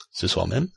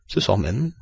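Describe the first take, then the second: First: "Ce soir même" rising into a question. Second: "Ce soir même" as an even, composed answer; confirming reply. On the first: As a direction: ask "Ce soir même", lifting the pitch on "même". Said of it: "demanda Stuart". (« Ce soir même » sur un ton interrogatif, montant sur « même ») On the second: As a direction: confirm "Ce soir même" matter-of-factly, without questioning. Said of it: "répondit Phileas Fogg". (« Ce soir même » en réponse posée, qui confirme) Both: A narrator's reading.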